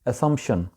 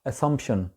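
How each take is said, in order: No difference in how they are said.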